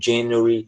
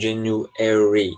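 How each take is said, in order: First: British style, with the stress before the ending. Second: American style, with the stress on the ending. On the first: "por isso que eles falam January" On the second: "O americano ele coloca ênfase geralmente no E"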